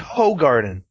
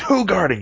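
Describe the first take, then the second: First: The first syllable sounds like the word 'hoe'. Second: The first syllable does not sound like 'hoe'. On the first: The speaker calls it wrong. "Stop saying Hoegaarden" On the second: The speaker calls it right. "they tell you how to pronounce that on their bottle"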